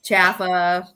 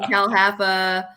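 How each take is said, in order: First: It is said as two syllables, starting 'Ja'. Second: It is said as three syllables, starting 'Cal'. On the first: "everybody I know says Jaffa" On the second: "you can say Cal Haffa"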